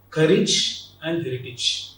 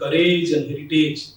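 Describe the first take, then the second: First: The endings are said as a short 'ij'. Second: The endings are said like the word 'age'. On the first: The speaker calls it right. "The N should be ij" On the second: The speaker calls it wrong. "Often we pronounce these two terms like courage and heritage. Age should not be the N"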